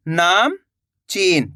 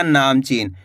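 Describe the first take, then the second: First: नामचीन as नाम, long pause, चीन; split in chunks. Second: Said in the usual way. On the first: Shown as a demonstration. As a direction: break नामचीन into two slow pieces. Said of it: "दो-दो करके आपको पढ़ा देता". (नामचीन, नाम के बाद रुककर) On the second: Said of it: "तो मिलके बन जाएगा".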